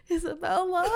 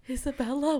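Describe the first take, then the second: First: Wailing call. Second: Mock feeble call for a roommate. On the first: Retold or imitated. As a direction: call the name in exaggerated distress. Repeats the call for help. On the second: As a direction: softly call the name, retelling it. Calling for roommate while dizzy.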